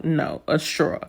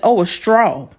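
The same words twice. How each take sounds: First: STRAW as "straw-uh", rounded aw; New York straw. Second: STRAW with an open ah, "strah"; Southern friend's straw. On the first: Correcting her Southern friend, straw said "straw-uh". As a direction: say straw with an aw gliding into uh, softer. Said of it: "like, you from New York". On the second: Friend finally understands, straw said as open "strah". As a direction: say straw with no uh glide at the end. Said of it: "and she says". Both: Retold or imitated.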